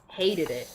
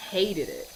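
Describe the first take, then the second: No difference in how they are said.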